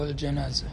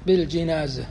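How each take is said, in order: First: الجنازة with a short a after the jim; fatha on the jim. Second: بالجنازة with a short i after the jim; kasra on the jim. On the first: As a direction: say الجنازة as "al-janaza". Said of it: "بكسر الجيم وبفتح الجيم". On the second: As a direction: say بالجنازة as "bil-jinaza". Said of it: "بكسر الجيم". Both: Shown as a demonstration.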